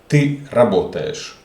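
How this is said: It is said with statement intonation.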